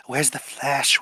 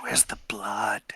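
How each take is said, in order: First: Said in the usual way. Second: Whispered hungry craving; creepy whisper. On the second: Acted. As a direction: hiss it softly, craving blood.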